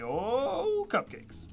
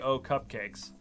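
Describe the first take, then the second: First: The 'oh' is drawn out long and loud. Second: The 'oh' is short and plain. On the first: The speaker calls it right. "It's three O's and an H, all caps for the name. That you got to say" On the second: The speaker calls it wrong. "You can't just say"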